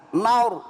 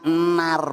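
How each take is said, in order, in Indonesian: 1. Bunyi r-nya tebal dengan bibir membulat. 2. Bunyi r-nya tipis dan tidak membulat. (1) "dibaca tebal" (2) "Jangan nar, Bu"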